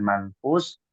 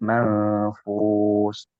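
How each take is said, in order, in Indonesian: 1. Huruf n diucapkan singkat dan bersih. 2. Huruf n sengau ditahan sekitar dua ketukan. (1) "bukan manfus" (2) "dibacanya ikhfa. Kurang lebih dua harokat ditahan"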